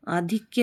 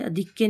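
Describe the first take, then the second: First: Said in the usual way. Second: अधिक्य with short opening 'a'; mispronounced अधिक्य. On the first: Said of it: "आधिक्य होता है". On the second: Shown as a demonstration. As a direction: say अधिक्य as a-DHIK-ya. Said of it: "अधिक्य नहीं होता है". (अधिक्य में 'अ' छोटा)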